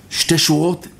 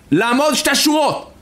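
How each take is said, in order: First: Said in the usual way. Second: High-pitched soldier's command; shouted German order. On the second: Retold or imitated. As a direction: call out the order to a whole crowd. (פקודה בצעקה של חייל גרמני) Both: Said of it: "הגרמני צועק".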